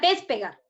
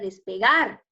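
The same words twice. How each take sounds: First: The stress is on the syllable pe. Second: The stress is on the syllable gar.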